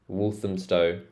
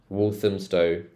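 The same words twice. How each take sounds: Both takes have the same delivery.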